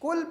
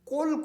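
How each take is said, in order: First: The first consonant is light and further forward. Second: The first consonant is deep and far back. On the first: It means 'eat'. The speaker calls it wrong. "अगर हम कुल को कुल पढ़ेंगे तो माना बदल जाएगा" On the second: It means 'say'. The speaker calls it right. "कौफ नरम तालु से और मोटा पढ़ना है"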